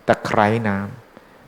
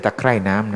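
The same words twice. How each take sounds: First: Slow ตะไคร้น้ำ, high tone on "khrai"; careful high tone. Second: ตะไคร่น้ำ with falling tone on "khrai"; contrasting falling tone. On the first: Monk teaching listeners the plant name, ตะไคร้น้ำ slow with high-tone khrai. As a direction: spell out ตะไคร้น้ำ slowly, water lemongrass. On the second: Monk ruling out the similar word, ตะไคร่น้ำ with falling-tone khrai. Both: Shown as a demonstration. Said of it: "ไม่ใช่ตะไคร่น้ำนะ".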